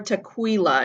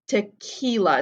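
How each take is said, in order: First: The 'qu' is a KW sound. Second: The 'qu' is a plain K sound. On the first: The speaker calls it wrong. "It's never tequila. It's there's never a K W sound here" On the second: The speaker calls it right. "in Spanish, it's always ca"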